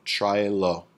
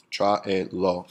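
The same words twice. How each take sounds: First: Said in the usual way. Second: "tráelo" broken into tra-e-lo; syllable by syllable. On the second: Shown as a demonstration. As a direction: sound out "tráelo" in three separate beats. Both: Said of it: "three syllables".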